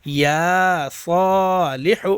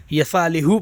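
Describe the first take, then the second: First: یا صالح slowly, یا drawn long, rising at the end; correct pronunciation. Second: یصالح run together with a short یا; wrong reading. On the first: Teacher gives the right pronunciation, long یا in یا صالح. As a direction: stretch یا in یا صالح and lift the end. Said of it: "صحیح تلفظ کیا ہے". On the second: Teacher imitates students' mistake, short یا in یصالح. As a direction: say یصالح quickly, no stretch on یا. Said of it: "تو یہ آپ کو نہیں پڑھنا". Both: Shown as a demonstration.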